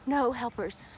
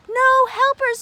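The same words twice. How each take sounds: First: Soft, low disappointed no helpers; quiet. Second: No helpers, higher and louder. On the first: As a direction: let No helpers drop softly. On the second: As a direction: lift No helpers up high. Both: Shown as a demonstration.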